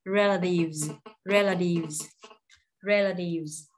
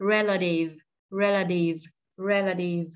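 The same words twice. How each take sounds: First: "relatives" ending in a buzzing V plus Z; careful model "relatives", final S voiced as Z. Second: "Relative" with the L linked into a short schwa; slow model "relative", stress first, buzzing V at the end. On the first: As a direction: draw out the VZ closing "relatives". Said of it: "khi mà thêm S vào". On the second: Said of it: "Nói âm L này qua". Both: Shown as a demonstration.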